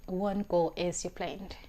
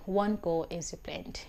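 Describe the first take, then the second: No difference in how they are said.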